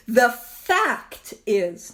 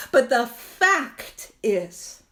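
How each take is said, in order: First: The fact is, drawn out very slowly, each word weighted; slow emphasis. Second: "but the fact is" stretched out very slowly, each word landed; slow emphasis again. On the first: Reading the Big Book to the AA group, very slow emphasis. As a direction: lean hard on "The fact is" and spell it out slowly. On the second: Driving the line home to the AA group, very slow emphasis. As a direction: drag out "but the fact is" to nail the point. Repeating key line after contrast. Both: Acted.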